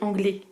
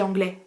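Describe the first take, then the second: First: It is said with a Normandy accent. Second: It is said with a standard French accent.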